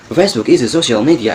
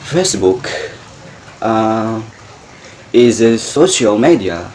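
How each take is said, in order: First: It is spoken quickly, without hesitation. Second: It is spoken slowly, with a hesitation. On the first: "berbicara dengan menggunakan speed atau kecepatan" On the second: "cobalah kalian mengucapkan bahasa Inggris dengan menggunakan pronunciation"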